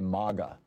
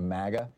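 First: The first vowel sounds like the one in 'father'. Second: The first vowel sounds like the one in 'cat'. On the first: It avoids sounding like an insult and sounds European. "they're now starting to say MAGA, like, you know, hey, we're in Europe now" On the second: This is the usual way of saying it. "It sounds too close to maggot"

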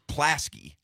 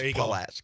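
First: The first vowel is dropped, giving two syllables. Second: The first vowel is kept, giving three syllables. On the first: This is how it used to be said. "Earlier it was Plaski" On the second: This is how it is said now. "Now it's Pulaski"

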